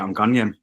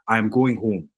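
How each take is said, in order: First: It is said in a broad Geordie accent. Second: It is said in standard English.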